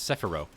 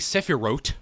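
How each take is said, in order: First: The final T sound is left silent. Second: The final T sound is clearly pronounced. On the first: The speaker calls it right. "The the the T in in Hebrew transliteration is silent. It's Sephiroth" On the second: The speaker calls it wrong. "you don't say Sephiroth"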